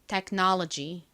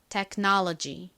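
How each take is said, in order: First: It is said with American vowels and stress. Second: The same.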